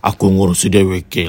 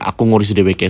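First: It is said in a deep baritone voice. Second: It is said in a normal voice.

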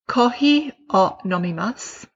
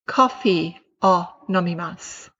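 First: The f is a soft breath between both lips. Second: The f is a strong lip-and-teeth friction. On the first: The speaker calls it right. "the Japanese F sounds a lot more like blowing out a candle" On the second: The speaker calls it wrong. "the English F puts the bottom lip underneath the teeth"

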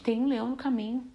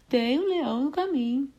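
First: It is said in the speaker's own natural voice. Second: It is said in a put-on cartoon character voice. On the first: The speaker is giving a plain warning. "eu vou falar, gente" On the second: It imitates a famous character's gloomy lament. "Eu imagino até um personagem famoso falando"

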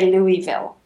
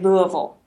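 First: It uses the outsider pronunciation of the name. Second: It uses the local pronunciation of the name. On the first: The speaker is not from the city. The speaker calls it wrong. "you do not say Louisville" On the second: The speaker is from the city. The speaker calls it right. "You say Louisville"

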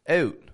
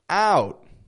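First: The vowel is short and clipped. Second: The vowel is stretched out and long. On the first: "A Canadian will make it a little shorter" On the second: "an American will stretch it out"

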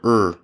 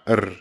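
First: The R is smooth, with no trill. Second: The R is rolled with a trill. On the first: The speaker calls it right. "our R's are R" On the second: The speaker calls it wrong. "not R"

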